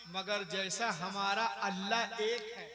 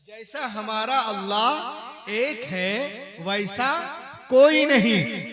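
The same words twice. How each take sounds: First: Said in the usual way. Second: Much louder, slow, building to a peak; slow climactic pulpit shout; emphatic preaching repeat. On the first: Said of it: "repeats line with force". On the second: Shown as a demonstration. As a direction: build each word up to a cry. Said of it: "repeat of previous line".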